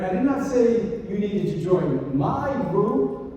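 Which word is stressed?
my. The stress is on the word my.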